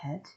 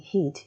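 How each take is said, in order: First: The vowel is relaxed, like 'eh'. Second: The vowel is tense, like 'ay'.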